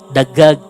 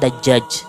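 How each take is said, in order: First: The doubled consonant is said as a 'g' sound. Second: The doubled consonant is said as a 'j' sound. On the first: The speaker calls it wrong. "Kalau orang Mesir nyebutnya apa? ... Karena susah mereka nyebut huruf ja" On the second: The speaker calls it right. "Kalau ayam itu kan dajjaj"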